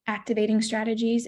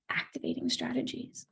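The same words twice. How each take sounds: First: Said in the usual way. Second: Hushed breathy whisper on the term. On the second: Shown as a demonstration. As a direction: drop to a whisper for emphasis. Repeats term, whispered and unvoiced.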